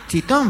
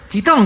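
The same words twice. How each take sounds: First: "Chitón" as a high rising question; incredulous high-pitched "Chitón"; questioning echo. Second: High, loud bark for silence; acted sharp shout; shouted hush. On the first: Acted. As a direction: echo "Chitón" back in disbelief. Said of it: "preguntó otro". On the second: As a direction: order silence across the cinema. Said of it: "gritó otro tipo".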